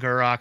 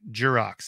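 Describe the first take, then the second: First: The name begins with a hard G sound. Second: The name begins with a soft J sound. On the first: The speaker calls it right. "Gurrox. It's Gur" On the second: The speaker calls it wrong. "you say Jurox every time"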